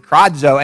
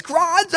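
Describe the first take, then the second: First: Said in the usual way. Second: High, drawn-out yelled demo; loud cry. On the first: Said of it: "if you really say that really loud". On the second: Shown as a demonstration. Preacher demonstrating the Greek word for crying out, a high yell. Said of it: "say that really loud".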